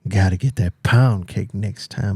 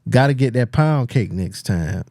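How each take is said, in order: First: It is read in a creepy put-on voice. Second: It is read in a plain, ordinary voice.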